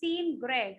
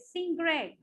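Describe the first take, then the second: First: The first word ends with a clear n sound. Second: The first word ends with an ng sound. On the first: "Instead of saying seen Greg" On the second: "I say sing Greg. Nga sound"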